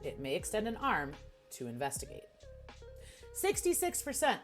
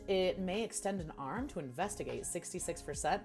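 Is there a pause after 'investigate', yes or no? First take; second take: yes; no. First: There is a pause after investigate. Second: It runs on with no pause after investigate.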